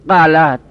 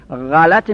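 First: The first consonant is a throaty stop. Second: The first consonant is a throaty fricative. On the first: The speaker calls it wrong. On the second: The speaker calls it right.

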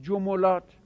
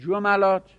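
First: The m is followed by a u vowel. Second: The m is followed by an a vowel. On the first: "عین الفعلش در حرکت تبعیت از فاعل فعل بکند" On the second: "فتحه بدید عین الفعل رو"

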